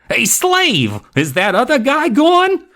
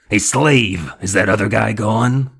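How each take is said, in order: First: It is said in a non-growling voice. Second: It is said in a throaty growl.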